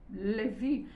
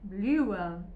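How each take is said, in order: First: The name is pronounced the German way. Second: The name is pronounced the English way. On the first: "em alemão seria Levi" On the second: "Lewen em inglês"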